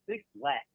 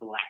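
First: The name starts with the word 'six'. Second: The name is said as the single word 'black'. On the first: The speaker calls it wrong. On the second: The speaker calls it right.

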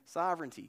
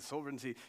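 First: It is said in an American English accent. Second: It is said in a British English accent. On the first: The speaker calls it wrong. "In English, we say things weird, you can't hear it" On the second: The speaker calls it right. "You say it in an English accent"

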